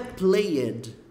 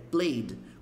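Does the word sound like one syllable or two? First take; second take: two; one. First: The ending is said as a separate extra syllable. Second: The e is silent, making one syllable. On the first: The speaker calls it wrong. "Não é played" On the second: The speaker calls it right. "Como se esse E aqui nem fosse falado"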